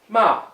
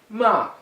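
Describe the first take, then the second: The two takes are said the same way.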